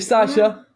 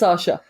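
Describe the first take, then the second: First: The first vowel sounds like a flat a. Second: The first vowel sounds like an o. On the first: The speaker calls it wrong. "I realised ... that I'm kind of mispronouncing it" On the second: The speaker calls it right. "everybody American says Sasha as if it's an O"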